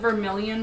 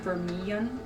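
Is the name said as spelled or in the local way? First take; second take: as spelled; local way. First: The name is said the way it is spelled. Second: The name is said in the shortened local way. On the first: "spelled like Vermilion" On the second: "a lot of the people pronounce it"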